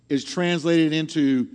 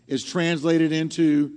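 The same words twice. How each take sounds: The two takes are said the same way.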